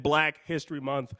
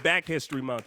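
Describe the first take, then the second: First: Said in the usual way. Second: "Back" said without the L; mispronounced Black. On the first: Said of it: "I meant Black History Month". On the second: Shown as a demonstration. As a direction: repeat the slip, "Back" for Black. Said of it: "I said Back History Month".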